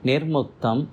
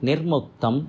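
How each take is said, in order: No difference in how they are said.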